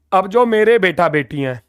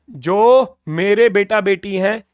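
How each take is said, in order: First: Said in the usual way. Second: Slows down to repeat जो मेरे बेटा बेटी हैं; slower repeat. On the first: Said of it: "जो मेरे बेटा बेटी हैं ये रहे". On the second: Shown as a demonstration. Teacher repeats the phrase for students, slowly. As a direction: say it again slowly so students follow.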